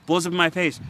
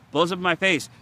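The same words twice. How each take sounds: The two takes are said the same way.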